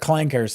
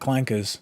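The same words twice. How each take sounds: First: The R sound is clearly pronounced. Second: The R sound is softened or dropped. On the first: The speaker calls it right. "with the hard R" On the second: The speaker calls it wrong. "they're not"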